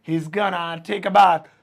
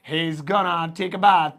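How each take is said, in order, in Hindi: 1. 'Going to' छोटा होकर एक शब्द बन जाता है, 'gonna'। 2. 'Going to' छोटा होकर एक शब्द बन जाता है, 'gonna'।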